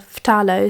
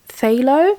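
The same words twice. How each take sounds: First: The word starts with an f sound. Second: The word starts without an f sound. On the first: The speaker calls it right. "you do uh, pronounce the ph as f" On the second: The speaker calls it wrong. "That to me sounds completely weird"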